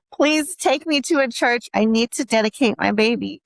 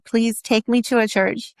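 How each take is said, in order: First: Emotional plea. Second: Said in the usual way. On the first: Retold or imitated. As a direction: beg again as tears come up. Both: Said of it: "I'm getting so emotional right now".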